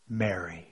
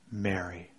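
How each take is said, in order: First: A soft, low, tender calling of her name; hushed, loving, much softer. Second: Soft, low, tender naming; hushed and lower. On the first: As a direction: say her name like a gentle embrace. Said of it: "something about the way he said it, the inflection in his voice, the tenderness". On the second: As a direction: breathe her name with deep love. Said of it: "at the sound of her voice, sound of a voice speaking her name". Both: A narrator's reading.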